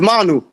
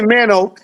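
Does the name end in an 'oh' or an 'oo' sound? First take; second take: oo; oh. First: The name ends in an 'oo' sound. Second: The name ends in an 'oh' sound. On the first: The speaker calls it right. "the pronunciation for my name is is Manu" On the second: The speaker calls it wrong. "don't call me Mano"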